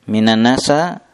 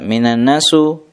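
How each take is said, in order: First: The last word ends in an a vowel. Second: The last word ends in an u vowel. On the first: "Fathah boleh? Tidak boleh" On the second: "Domah boleh?"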